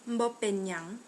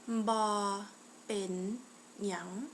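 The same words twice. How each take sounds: First: The phrase is said at a normal pace. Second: The phrase is said a little more slowly. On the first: "how you would say that is" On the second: "to say it a little slower again"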